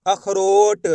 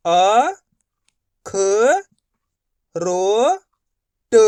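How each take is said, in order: First: Said in the usual way. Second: "अ, ख, रो, ट" spoken as separate letters with long pauses; split into letters. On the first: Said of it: "तो मिलके बन जाएगा". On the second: Shown as a demonstration. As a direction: say each letter on its own, slowly. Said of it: "एक ही अक्षर का उच्चारण करके इनको पढ़ रहा हूँ". ("अ, ख, रो, ट" को अलग-अलग रुककर बोलना)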